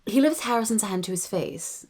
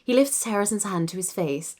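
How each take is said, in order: First: Harrison with an open "ah" in RP. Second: RP reading with Harrison slightly off; slipped RP accent. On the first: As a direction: say Harrison with an "ah" first vowel, British RP. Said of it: "ah, not Harrison". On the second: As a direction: let Harrison slip out of the RP accent. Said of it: "I need to say it with". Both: Shown as a demonstration.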